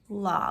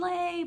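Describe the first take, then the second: First: The syllable ends with an 'ah' sound. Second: The syllable ends with an 'ay' sound. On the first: The speaker calls it right. "like la" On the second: The speaker calls it wrong. "you would think open lay, but it's not"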